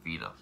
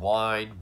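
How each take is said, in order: First: The name starts with V and has two syllables. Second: The name sounds like English "wine". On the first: The speaker calls it right. "I'm going to pronounce it right now" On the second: The speaker calls it wrong. "I've heard Wine"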